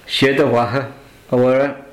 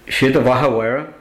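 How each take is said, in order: First: It is said slowly and deliberately. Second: It is said at a normal, fluent speed.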